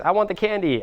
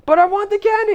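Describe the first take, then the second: First: Lightly voiced child, higher pitch; a hint of a kid wanting a treat; demanding kid. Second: Very high-pitched mock child's whine; whining kid. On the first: Kid to parent in the supermarket, lightly demanding. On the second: Kid pleading with parent for candy, whiny and high. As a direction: play a tantruming kid, voice way up.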